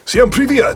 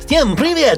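First: It is said in a normal voice. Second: It is said in a high, helium-like trailer voice.

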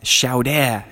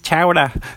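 First: The word is said with a French accent. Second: The word is said with a New England accent. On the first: "the waiter was like French" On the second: "super New England, like, JFK guy"

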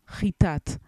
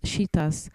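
First: Modern Hebrew pronunciation, with the word ending in t. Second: Ashkenazi pronunciation, with the word ending in s. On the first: "but in Hebrew it's Chitat"

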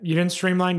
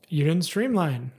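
First: It sounds strong, gruff and rude. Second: It sounds gentle, soft and friendly.

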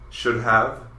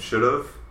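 First: Have is said in full after should. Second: Have is cut down to a v sound. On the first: "should have becomes should've" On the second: "should have becomes should've"

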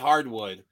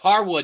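First: The name is said with a D in the middle. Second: The name is said without a D in the middle. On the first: The speaker calls it wrong. "not Hardwood" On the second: The speaker calls it right. "It's Hardwood"

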